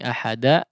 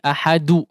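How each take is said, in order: First: The final d is followed by an 'a' vowel. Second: The final d is followed by a 'u' vowel. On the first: "tidak seperti bunyi ahada" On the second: "tidak juga seperti ahadu"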